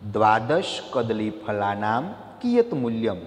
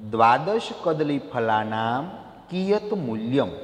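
First: Said in the usual way. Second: Teacher dictating slowly; slow careful reading. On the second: Shown as a demonstration. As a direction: read the Sanskrit question slowly, syllable by syllable. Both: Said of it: "પહેલો પ્રશ્ન".

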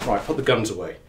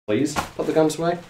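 First: Said in the usual way. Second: Higher, rising polite plea; pleading. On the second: Real, not acted. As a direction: coax with a questioning lilt. Repeats instruction as a plea.

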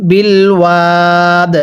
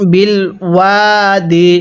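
First: Slow, ওয়াদ ending on a closed দ; pause form. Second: ওয়াদি said with its final -di vowel; joined reading. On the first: Teacher shows how the word ends at a stop, slow. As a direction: stop on ওয়াদ with no final vowel. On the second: Teacher shows the joined form before the pause. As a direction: read ওয়াদি through, keeping the vowel. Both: Shown as a demonstration. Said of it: "এখন যদি ওয়াকফ করি তাহলে".

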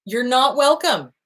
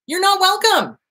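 First: Slow flat repeat. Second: High snap. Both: Shown as a demonstration.

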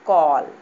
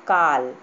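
First: कॉल with a rounded aw, loud; English call. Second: काल loud, open aa; काल with long aa. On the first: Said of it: "C A double L". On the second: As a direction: say काल clearly, open vowel. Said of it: "क पर आ की मात्रा ल". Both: Shown as a demonstration.

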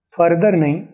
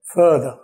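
First: Further with hard r, fur-der; further, Indian style with r; wrong further. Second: Further as fuh-duh, no r; further, non-rhotic British. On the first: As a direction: say further rolling both r sounds. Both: Shown as a demonstration.

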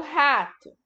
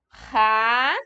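First: Said in the usual way. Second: "Rato" split in two with a long pause; syllable by syllable. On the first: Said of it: "Agora o rato". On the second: Shown as a demonstration. Teacher spells rato for pupils, "Rato" in separate held syllables. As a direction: hold each syllable of "Rato" apart. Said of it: "Quantas partes tem rato?".

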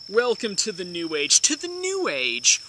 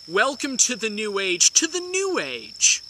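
No difference in how they are said.

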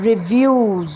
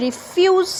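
First: রিভিউজ with a voiced v, pitched lower; v sound. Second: রিফিউজ with a crisp f; f sound. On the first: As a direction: model রিভিউজ with v. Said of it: "এখানে ভা". (ভা দিয়ে রিভিউজ) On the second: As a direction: model রিফিউজ with f. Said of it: "এখানে ফা". (ফা দিয়ে রিফিউজ) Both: Shown as a demonstration.

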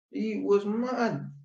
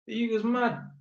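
First: "He was mad." dragged out slowly, each word weighted; slow emphatic. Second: Said in the usual way. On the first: Shown as a demonstration. Telling viewers the tenant's son was really aggressive, slow and emphatic.

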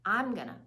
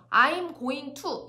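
First: I'm gonna run together into one chunk; quick, linked I'm gonna. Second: I'm going to said word by word, very slow and separate; slow, choppy I'm going to, no linking. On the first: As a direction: glide I'm gonna as a single word. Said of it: "하나로 연결해서 연음으로". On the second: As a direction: pull apart I'm going to, every word on its own. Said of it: "이렇게 얘기하지 않아요, 따로따로". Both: Shown as a demonstration.

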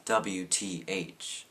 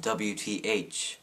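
First: Drawn-out scornful "W T H", each letter slow; mocking. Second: Said in the usual way. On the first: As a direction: sneer "W T H" letter by letter. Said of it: "No one says". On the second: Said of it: "and "sis" and".

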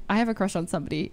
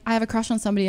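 First: A quick parroting repeat, a bit lower; teasing echo of a crush confession; fast mocking echo. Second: Said in the usual way. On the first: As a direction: rattle his words back quickly. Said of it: "I was like". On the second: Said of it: "and he was like".

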